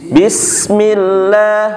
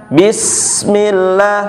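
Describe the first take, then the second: Both takes have the same delivery.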